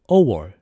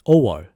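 No difference in how they are said.

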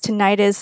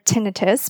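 First: The ending sounds like '-itis'. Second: The ending does not sound like '-itis'. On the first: It suggests an inflammation, as in arthritis. The speaker calls it wrong. "there's an itis in there" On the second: It avoids suggesting inflammation. The speaker calls it right. "we did prefer tinnitus"

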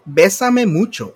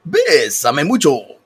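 First: It is said in a normal speaking voice. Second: It is said in a radio-announcer voice.

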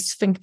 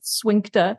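First: The word begins with an 'sf' sound. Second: The word begins with an 'sw' sound.

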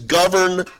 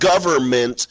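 First: The n after 'gover' is clearly pronounced. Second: The n after 'gover' is dropped. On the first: The speaker calls it right. "It's government because they govern" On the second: The speaker calls it wrong. "not government"

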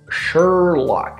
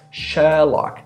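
First: The R sound is strongly pronounced. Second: The R becomes a prolonged vowel. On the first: "The R in American English is really, really pronounced" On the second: "In British English, the R sound is just a vowel sound that was prolonged"

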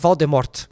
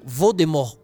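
First: The name ends with a final T sound. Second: The name ends without a final T sound. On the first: The speaker calls it wrong. "e não" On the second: The speaker calls it right. "sem o T no final"

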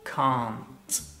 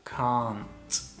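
First: It is said with a British accent. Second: It is said with a British accent.

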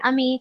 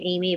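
First: The name is pronounced the French way. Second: The name is pronounced the English way. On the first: "I'm saying Ami because that sounds more French" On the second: "they could say Saint Amy"

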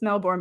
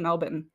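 First: Melbourne is said in a non-Australian way. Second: Melbourne is said the way Australians say it. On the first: "It's Melbourne" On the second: "but I think they say Melbourne"

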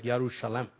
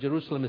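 First: The word begins with a Y sound. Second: The word begins with a J sound.

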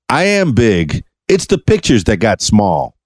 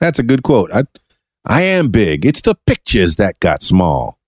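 First: The line is read in a plain, ordinary voice. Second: The line is delivered in a theatrical, old-film voice.

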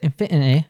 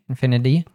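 First: It is said in a Cockney accent. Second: It is said in an American accent. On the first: "Or if you're Cockney, you might say infinity" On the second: "we have an American T there and an infinity"

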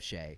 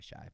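First: The vowel sounds like 'ay' in 'day'. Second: The vowel sounds like 'eye' in 'my'. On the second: "It's probably Shy"

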